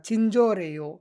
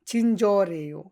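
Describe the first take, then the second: No difference in how they are said.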